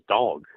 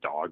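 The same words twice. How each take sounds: First: The word is said with an added L sound. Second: The word is said without an L sound. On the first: "adds it to the word dog" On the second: "dog becomes"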